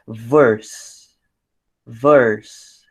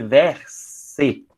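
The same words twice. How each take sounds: First: English "verse" as one syllable ending in s; final e swallowed. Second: "verse" split as VER-SE, in two syllables; final e sounded. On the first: Teacher showing it is one syllable, "verse" with silent e. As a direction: say "verse" with no vowel after the s. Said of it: "como você engole a última letra". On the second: Teacher showing the wrong reading, "verse" as two slow syllables ver-se. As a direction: read "verse" slowly Portuguese-style, sounding the last e. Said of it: "porque se fosse verse". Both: Shown as a demonstration.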